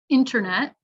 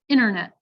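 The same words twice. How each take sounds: First: The T after N is clearly pronounced. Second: The T after N is dropped. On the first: The speaker calls it right. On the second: The speaker calls it wrong.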